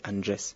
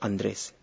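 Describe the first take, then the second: First: The R is a voiced fricative sound. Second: The R is a plain, non-fricative R.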